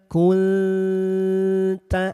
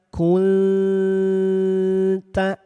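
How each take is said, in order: The two takes are said the same way.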